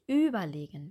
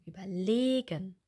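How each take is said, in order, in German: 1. Die Betonung liegt auf der ersten Silbe. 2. Die Betonung liegt auf der dritten Silbe. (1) "Wir sagen nicht überlegen" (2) "wir sagen überlegen"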